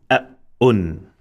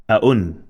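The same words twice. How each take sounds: First: "a, un" with a stressed, doubled hamza; "a, un" split by a firm glottal catch; double sound with emphasis. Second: Said in the usual way. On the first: Shown as a demonstration. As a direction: stop hard after "a", then a drawn-out "un". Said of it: "double sound of dhamma with emphasis". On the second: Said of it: "And then double sound".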